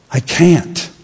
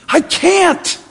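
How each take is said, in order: First: Said in the usual way. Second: High, thin mock-helpless whine. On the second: Preacher mimicking a helpless excuse, high whine.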